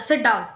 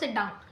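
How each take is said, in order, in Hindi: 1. यह गुस्से और कठोर लहजे में कहा गया है। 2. यह शांत और आराम वाले लहजे में कहा गया है। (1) "अगर मैंने बहुत गुस्से से बोला" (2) "एक तो मैंने आराम से बोला"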